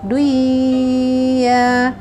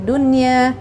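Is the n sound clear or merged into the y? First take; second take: merged; clear. First: The n sound is merged into the y. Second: The n sound is pronounced clearly before y. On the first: The speaker calls it wrong. "Nun seharusnya masuk ke dalam huruf ya" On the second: The speaker calls it right. "harus dibaca jelas atau idhar mutlak"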